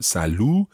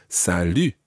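First: Salut with an English "oo" at the end; mispronounced salut. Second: Salut ending in a tight French U; slow, careful "salut" with lips rounded on an "ee"; French U sound. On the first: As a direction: wrongly round "salut" into sa-loo. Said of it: "It's not salut". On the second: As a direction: say "salut" with fronted U, not "oo". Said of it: "we can use that U sound". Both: Shown as a demonstration.

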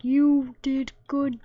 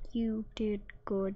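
First: Slower and louder, mocking; mock NPC voice. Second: Soft unvoiced whisper; whispered NPC line. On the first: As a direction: say it like the NPC would. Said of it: "that's what his voice is like". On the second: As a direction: breathe the praise. Voicing the game NPC quietly.

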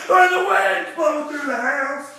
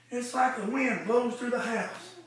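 First: Preached shout; shouted line. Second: Soft aside; quiet retelling. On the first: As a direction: belt it to the back pews. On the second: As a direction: hush it down as if telling her privately. Quiet retelling of same line. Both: Acted.

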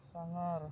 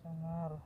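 No difference in how they are said.

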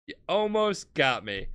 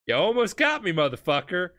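First: Said in the usual way. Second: Snapping at a near miss, pitched up; Dio snarls at Polnareff after nearly being killed, mock snarl.

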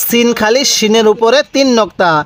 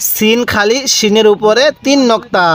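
The two takes are said the same way.

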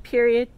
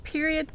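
First: Period punched loud; insistent final word; emphatic. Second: Said in the usual way. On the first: Acted.

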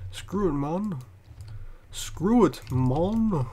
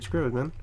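First: Cocky mock tough-guy growl; hammed-up brash tough guy; fake tough guy swagger. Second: Said in the usual way.

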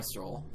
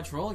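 First: Stroll said with its full ST start; self-correction. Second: Troll said with a plain T, the S dropped; slip of the tongue. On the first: Fixing a misread line, a careful stroll. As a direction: correct yourself and say stroll clearly with the S. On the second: Misreading game dialogue aloud, a quick troll for stroll. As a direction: trip over the word troll, missing its S. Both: Real, not acted. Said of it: "Not stroll".

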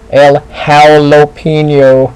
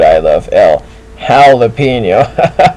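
First: "El Jalapeno" with the "Jala" said as "Howl", drawn out slowly; punning restaurant name. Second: Slow "El Jalapeno" with "Jala" said as "Howl"; punning restaurant name again. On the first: Bulldog comic setting up the howl pun: slow, loud "El Jalapeno" sounding "Howl-apeno". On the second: Bulldog comic signing off with the pun: drawn-out "El Jalapeno" like "Howl-apeno". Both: Shown as a demonstration. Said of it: "Get it? Hal".

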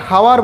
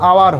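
First: হাওয়ার with the H sounded at the start; হাওয়ার with a spoken H, shown as the mistake; wrong pronunciation. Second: আওয়ার with a silent H; আওয়ার as the teacher's model with no H; correct pronunciation. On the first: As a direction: say হাওয়ার with an audible H. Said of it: "উচ্চারণটা হাওয়ার বলো না কেউ". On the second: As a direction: say আওয়ার starting straight on the vowel. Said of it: "আওয়ার হয়". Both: Shown as a demonstration.

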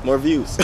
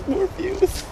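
First: Said in the usual way. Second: Much higher squeaky repeat. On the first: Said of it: "repeats in squeaky voice". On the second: Shown as a demonstration. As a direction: squeak the line way up. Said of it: "repeat high and squeaky".

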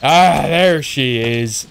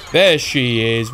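First: Drawn-out pirate "Ah, there she is"; slow growly pirate drawl. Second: Said in the usual way. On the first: Real, not acted. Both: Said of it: "I sound a bit like a pirate then".

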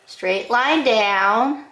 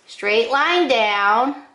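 The two takes are said the same way.

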